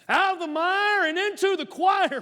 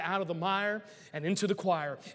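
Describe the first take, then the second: First: It is said in a Southern American accent. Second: It is said in the speaker's usual accent.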